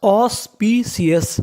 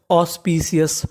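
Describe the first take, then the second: First: ऑस्पिशियस slowly, in separated chunks; ऑस्पिशियस stretched out with small breaks between parts; syllable by syllable. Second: Said in the usual way. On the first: Shown as a demonstration. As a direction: sound out ऑस्पिशियस as aus, pee, shius. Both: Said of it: "तो meaning बनी".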